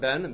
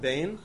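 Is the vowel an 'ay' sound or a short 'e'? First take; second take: short e; ay. First: The vowel is a short 'e' sound. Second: The vowel is an 'ay' sound. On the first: The speaker calls it wrong. "not Ben" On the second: The speaker calls it right.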